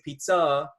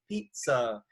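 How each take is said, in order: First: The stress is on the second syllable. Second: The stress is on the first syllable. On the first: The speaker calls it wrong. "where the second syllable has more emphasis" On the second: The speaker calls it right. "You usually say pizza"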